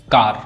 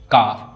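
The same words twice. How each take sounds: First: Said in the usual way. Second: "कार" said as "का", no R; "कार" ending on an open long aa; silent final R. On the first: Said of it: "लेकिन इसका उच्चारण सिर्फ का होता है". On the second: Shown as a demonstration. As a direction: drop the R at the end of "कार". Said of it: "उच्चारण सिर्फ का होता है".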